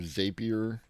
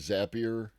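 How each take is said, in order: First: It is said rhyming with 'rapier'. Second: It is said not rhyming with 'rapier'.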